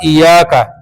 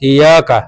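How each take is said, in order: First: The y sound is doubled and held. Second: The y sound is single and short. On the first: The speaker calls it right. "ईया का नाबुदो की जगह" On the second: The speaker calls it wrong. "शद पड़ी नहीं बगैर तशदीद"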